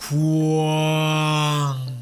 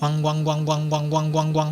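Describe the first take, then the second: First: The syllable is drawn out slowly. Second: The syllable is repeated quickly. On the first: The sound feels dull with wide space and area. "이 광이라는 발음의 속도를 느리게 하면" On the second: The sound's space and area become smaller. "광이라는 발음의 속도를 빠르게 한다면"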